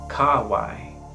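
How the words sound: It is said in classical Roman Latin pronunciation. "In Roman pronunciation"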